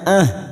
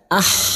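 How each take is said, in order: First: The h is a plain, light breathy sound. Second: The h is a tight, raspy throat sound. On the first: The speaker calls it wrong. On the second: The speaker calls it right. "huruf ha hati-hati tertukar ha"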